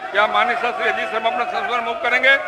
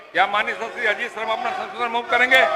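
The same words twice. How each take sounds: Both takes have the same delivery.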